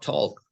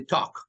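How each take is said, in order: First: The L sound is pronounced. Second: The L sound is silent. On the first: The speaker calls it wrong. "not talk" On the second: The speaker calls it right. "you never name the L"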